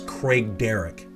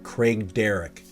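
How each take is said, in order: No difference in how they are said.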